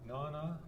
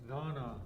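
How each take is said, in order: First: The word ends in an 'a' vowel. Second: The word ends in an 'a' vowel.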